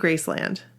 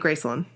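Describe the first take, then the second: First: It is said the way outsiders pronounce it. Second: It is said the way Memphis locals pronounce it. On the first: This is how the speaker's own group says it. "so we say Graceland" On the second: This is how people in Memphis say it. "but they say Graceland"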